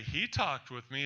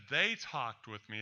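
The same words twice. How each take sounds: First: HE stressed, the single one. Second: THEY stressed, more than one. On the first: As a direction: lean on "He" to show one person. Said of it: "as in singular". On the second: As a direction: lean on "They" to show many. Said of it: "as in plural". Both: Shown as a demonstration.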